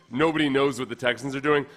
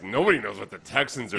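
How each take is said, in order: First: It is said in a plain, informational tone. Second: It is said in a scornful, mocking tone. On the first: No one has any information about their plans. "I think the executive probably said" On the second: The team is clueless. "it made it sound like the executive saying, like"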